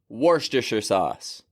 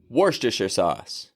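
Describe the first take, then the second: No difference in how they are said.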